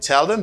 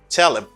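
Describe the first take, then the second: First: The word them is said fully, with its th. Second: The th is dropped, leaving a reduced 'em. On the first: "Instead of saying tell them" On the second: "they say tell him"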